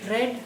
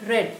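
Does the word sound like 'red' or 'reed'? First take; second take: red; red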